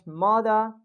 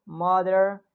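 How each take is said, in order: First: "mother" with British dropped R; British accent. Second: "mother" with an American R; American accent. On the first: Teacher shows students the dropped R, British accent. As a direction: end "mother" on an open vowel, British style. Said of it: "If we'll talk about British". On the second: Teacher lists examples for students, American accent. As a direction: give "mother" its American R ending. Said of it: "I'm speaking in American accent". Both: Shown as a demonstration.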